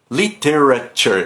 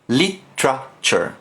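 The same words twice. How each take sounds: First: The middle syllables are pronounced separately and fully. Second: The middle is squeezed into a single 'tra' sound. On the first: The speaker calls it wrong. "O que não pode falar é literature" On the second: The speaker calls it right. "É você falar um tra"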